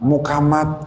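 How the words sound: The middle consonant is a k sound. The speaker calls it wrong.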